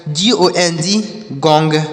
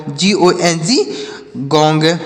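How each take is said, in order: Both takes have the same delivery.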